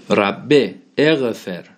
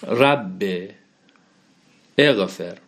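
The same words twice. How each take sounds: First: ربه اغفر read slowly, pressing the kasra on ربه; slow Arabic recitation with kasra; stressed kasra. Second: Said in the usual way. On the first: Shown as a demonstration. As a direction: lean on the final -e of ربه, slow. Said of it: "ربه اومده". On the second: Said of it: "خب، رب اینجا چی بوده؟".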